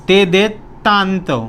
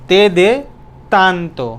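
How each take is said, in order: The two takes are said the same way.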